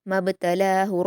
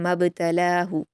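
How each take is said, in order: First: The b is released with a short echoing bounce. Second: The b is released with a short echoing bounce.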